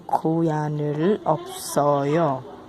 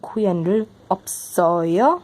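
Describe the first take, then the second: First: It is said with statement intonation. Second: It is said with question intonation. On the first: The speaker is answering that they have no cat. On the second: The speaker is asking whether they have a cat.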